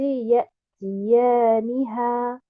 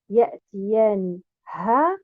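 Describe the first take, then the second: First: The stress falls on the 'ni' syllable. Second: The stress falls on the final 'ha' syllable. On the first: The pronoun stays attached to the verb. The speaker calls it right. "En plaçant un nabr sur harakat al-nun" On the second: The pronoun is detached and it makes no sense. The speaker calls it wrong. "en plaçant un nabr sur harakat al-ha"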